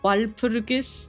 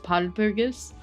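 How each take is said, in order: First: The word begins with a W sound. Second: The word begins with a P sound. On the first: This is the expected form with a wa sound. "it's like not wal walpurg wal walpurgis" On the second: This is the Korean version of the name. "but instead it's palpurgis"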